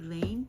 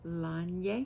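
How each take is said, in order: First: The name ends in a plain 'ane' sound. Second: The name ends with an added 'ye' sound. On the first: The speaker calls it wrong. "you've heard me say Lane" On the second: The speaker calls it right. "but it's actually Lanye"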